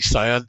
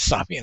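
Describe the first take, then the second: First: It is said like 'sow-in', without an h. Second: It is said like 'sam-hane', with an h. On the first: The speaker calls it right. "it's actually Sion" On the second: The speaker calls it wrong. "pronouncing it incorrectly"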